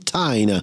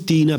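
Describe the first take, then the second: First: The name is said with an American pronunciation. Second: The name is said with an Italian pronunciation. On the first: "in America la chiamano Tina" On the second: "noi italiani la chiamiamo Tina"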